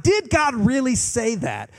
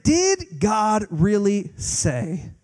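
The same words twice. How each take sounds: First: Higher, indignant rhetorical question; preacher mimicking society's doubt; incredulous challenge. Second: Very slow, drawn-out sly question; a hint of the sly serpent; mocking serpent. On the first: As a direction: throw the doubt back at the crowd. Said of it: "society challenging God's word". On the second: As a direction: drag it out like a doubting serpent. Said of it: "he's saying".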